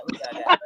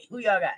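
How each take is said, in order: First: Fading down to a whisper; "Who y'all got?" said unvoiced and hushed. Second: Said in the usual way. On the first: Shown as a demonstration. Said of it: "repeated, fading to a whisper". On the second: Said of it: "repeated with fading voice".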